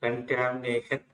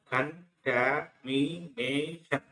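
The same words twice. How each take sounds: First: కంటామినేషన్ said slowly and clearly as a whole word; slow model word. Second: కంటామినేషన్ stretched very slowly, each syllable held; drawn-out syllables. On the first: Teacher saying the word once before breaking it down, slowly. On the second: Teacher drawing the word out for pupils, very slowly. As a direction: crawl through కంటామినేషన్ one syllable at a time. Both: Shown as a demonstration. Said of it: "ఎన్ పలకదు కాబట్టి".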